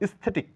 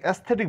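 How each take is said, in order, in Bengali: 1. শব্দটি প্রায় সরাসরি s ধ্বনি দিয়ে শুরু হয়। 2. s ধ্বনির আগে একটি স্বরধ্বনি শোনা যায়। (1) "উচ্চারণ করা আমরা স্থেটিক" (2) "কিন্তু অ্যাস্থেটিক না"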